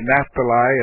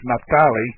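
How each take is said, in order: First: The name is given an anglicized pronunciation. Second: The name is given a Hebrew-style pronunciation. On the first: This is the usual English-speaking pronunciation. The speaker calls it wrong. "we might say Naphtali" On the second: This is how the bearer of the name says it. The speaker calls it right. "his name is Naphtali"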